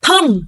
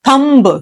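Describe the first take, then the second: First: The final b is silent. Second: The final b is sounded. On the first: The speaker calls it right. "Always remember B is silent" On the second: The speaker calls it wrong. "So many people pronounce it as thumb"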